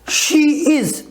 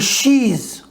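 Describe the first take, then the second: First: It is said as two full separate words. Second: It is contracted into one short syllable.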